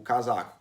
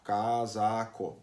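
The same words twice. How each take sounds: First: Said in the usual way. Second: "casaco" very slowly as ca, sa, co; syllable by syllable. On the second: Shown as a demonstration. Teacher shows students how to divide a word, "casaco" slowly syllable by syllable. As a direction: draw out and separate each syllable of "casaco". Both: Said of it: "falar bem devagarinho pra fazer a divisão".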